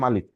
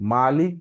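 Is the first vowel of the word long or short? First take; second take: short; long. First: The first vowel is short, not drawn out. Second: The first vowel is drawn out long. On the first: "টানটা হবে না, মাত্রা থাকবে না" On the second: "মিমের পরে একটা আলিফ বা খাড়া জবর"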